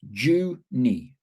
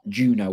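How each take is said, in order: First: The name ends in an 'ee' sound. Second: The name ends in an 'oh' sound. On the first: The speaker calls it right. "where I live in Australia is pronounced Junie" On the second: The speaker calls it wrong. "not Juno or whatever I did"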